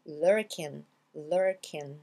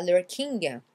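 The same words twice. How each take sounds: First: LURKING as slow, lower "lurkin"; silent G. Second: LURKING ending in a sounded "ging-guh"; hard final G. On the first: Teacher corrects learners, LURKING without G. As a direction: stop on N, no G in lurking. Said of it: "vous oubliez le G". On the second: Teacher shows learners the mistake, G pronounced. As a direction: punch out the G at the end of lurking. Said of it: "c'est pas lurking". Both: Shown as a demonstration.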